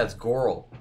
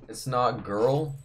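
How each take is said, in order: First: "Goral" with an open aw before the r; girl as "Goral". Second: Said in the usual way. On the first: Shown as a demonstration. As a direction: round the vowel in "Goral", like gaw-rul. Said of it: "That's how she says it". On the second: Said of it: "No, it's not girl".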